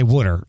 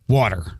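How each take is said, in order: First: It is said with a Philadelphia accent. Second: It is said with a General American accent. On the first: "muscle memory that I don't say water" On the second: "I say water"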